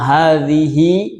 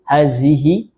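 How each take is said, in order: First: The middle consonant is a voiced th sound. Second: The middle consonant is a lightly hissed z. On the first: The speaker calls it right. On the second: The speaker calls it wrong.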